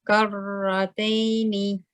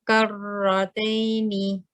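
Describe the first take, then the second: The two takes are said the same way.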